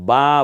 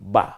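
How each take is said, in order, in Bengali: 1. স্বরটি টেনে লম্বা করে বলা হয়। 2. স্বরটি ছোট করে দ্রুত বলা হয়। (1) "তা বা বলবেন না" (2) "হারাকাতের উচ্চারণ খুব দ্রুত করতে হয়"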